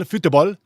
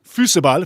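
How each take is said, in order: First: Football said as futebol, rising; playful football, rising tune; football, tune going up; football with rising end. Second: Football said as fusebaul, louder; football with a continental twist; hyped foosball sound; football, European style. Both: Shown as a demonstration.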